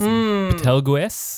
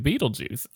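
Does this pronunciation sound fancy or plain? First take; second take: fancy; plain. First: The name is said in a fancy, refined way. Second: The name is said in a plain, casual way.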